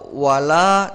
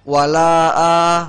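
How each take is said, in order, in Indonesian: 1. Vokal akhirnya pendek. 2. Vokal akhirnya dipanjangkan.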